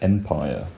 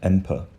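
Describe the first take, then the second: First: The second syllable has a full vowel. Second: The second syllable has a reduced vowel. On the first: The speaker calls it right. "still have that, that full vowel quality now. We say empire" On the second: The speaker calls it wrong. "not emper"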